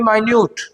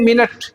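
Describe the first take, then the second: First: It is said as my-NOOT, second syllable stressed. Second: It is said as MIN-it, first syllable stressed. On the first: It means very small in size. "In the reference of size" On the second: It refers to a unit of time. "In the reference of time"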